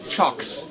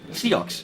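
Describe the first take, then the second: First: The name begins with a ch sound. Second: The name begins with an s sound. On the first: The speaker calls it right. "apparently you say" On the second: The speaker calls it wrong. "I'm saying this wrong"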